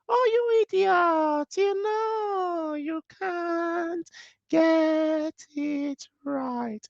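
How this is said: It is said slowly in a squeaky voice.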